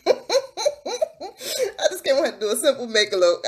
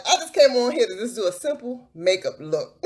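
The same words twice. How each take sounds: First: Giggling through the repeated line; laughing repeat. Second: Said in the usual way. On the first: Real, not acted. Laughing as she tells viewers she only wanted a makeup look. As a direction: laugh as you say it again.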